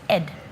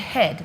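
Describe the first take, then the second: First: The word begins without an H sound. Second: The word begins with an H sound. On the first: The speaker calls it wrong. "They can't pronounce the letter H very well" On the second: The speaker calls it right. "if they want to say head"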